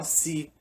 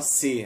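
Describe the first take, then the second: First: "se" said as "si", the e raised to i; relaxed colloquial "se" sounding like "si"; everyday spoken se. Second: "se" said with a closed e, like "seh"; the "se" the way nobody says it in chat; careful formal se. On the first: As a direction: say "se" like "si", the way Brazilians talk. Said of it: "a gente fala se". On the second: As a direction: spell out "se" with a crisp e sound, not i. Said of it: "A gente não fala se". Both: Shown as a demonstration.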